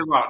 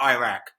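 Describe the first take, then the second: First: The name is said the non-American way. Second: The name is said the American way. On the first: The speaker calls it right. "You know it's called Iraq" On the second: The speaker calls it wrong. "not Iraq, ... Americans say"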